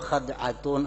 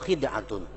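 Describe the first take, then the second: First: The first vowel is a. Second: The first vowel is i.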